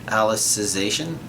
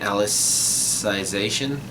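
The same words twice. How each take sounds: First: The second 'i' syllable is said weakly. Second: The second 'i' syllable is stressed strongly. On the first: This is how the English dub says it. "that's the pronunciation that was used in act- in the English dub" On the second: This is how the speaker has been saying it. "putting not only emphasis but also um, pronouncing that second I strongly"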